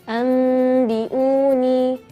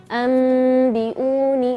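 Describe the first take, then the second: Both takes have the same delivery.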